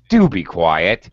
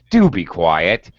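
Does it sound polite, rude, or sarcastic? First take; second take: rude; rude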